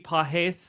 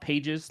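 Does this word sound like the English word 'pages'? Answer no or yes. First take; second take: no; yes. First: It is said unlike the English word pages. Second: It is said like the English word pages. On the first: "I think is how you pronounce it" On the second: "it's not pages, like pages of a book"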